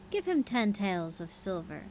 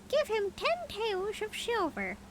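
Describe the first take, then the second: First: Said in the usual way. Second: "Give him ten taels of silver" very high and slow as the mynah; high bird voice. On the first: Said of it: "Uh, whoops". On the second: A narrator's reading. Mynah bargaining with the prince, high bird voice. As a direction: redo it squeaky and high like the bird. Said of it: "continued the bird".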